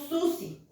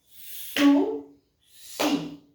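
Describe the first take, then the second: First: The word is said smoothly without a break. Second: The word is split with a pause between syllables. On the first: "Aquí tengo Susi" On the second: "para separar en sílaba puedo usar mi manito y pronunciar la palabra"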